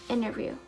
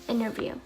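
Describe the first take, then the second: No difference in how they are said.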